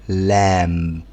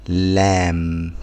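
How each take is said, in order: The two takes are said the same way.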